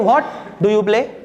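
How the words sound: The stress falls on the word what. "Stress कहां पे? What पे।"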